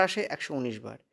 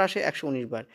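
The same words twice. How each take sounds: The two takes are said the same way.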